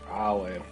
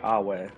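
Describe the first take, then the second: First: The middle consonant is a V sound. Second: The middle consonant is a W sound. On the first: The speaker calls it wrong. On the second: The speaker calls it right.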